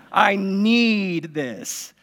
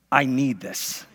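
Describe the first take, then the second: First: "I need this" stretched very slowly, "need" drawn out; dragged desperate child's whine on "need"; drawn-out plea. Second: "I need this" said low and soft, whining; quiet child's plea "I need this"; pleading kid. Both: Retold or imitated. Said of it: "kids are like".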